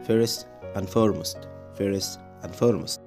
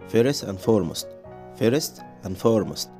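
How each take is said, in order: No difference in how they are said.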